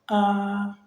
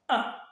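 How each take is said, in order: First: The pitch stays high and level. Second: The pitch falls sharply and briefly. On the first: "un ton aigu, constant et continu" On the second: "il est grave et bref"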